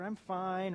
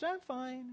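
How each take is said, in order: First: It is said at a normal pitch. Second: It is said in a high-pitched voice.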